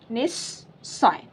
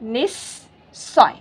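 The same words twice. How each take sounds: First: निस्सय repeated softer and very slowly as "nissoy". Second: निस्सय said very slowly as "nissoy", with a doubled s; slow demonstration. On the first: Teacher repeats the model word softly for learners, slow. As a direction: echo निस्सय gently, holding the double s. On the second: Teacher to online Assamese learners, slow careful model word. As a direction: draw out निस्सय, leaning on the double s. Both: Shown as a demonstration. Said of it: "तो क्या उच्चारण बना?".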